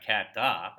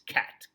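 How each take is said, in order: First: An extra syllable follows the final t. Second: The word ends cleanly on the t. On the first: The speaker calls it wrong. "It's not cat da" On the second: The speaker calls it right. "it's cat"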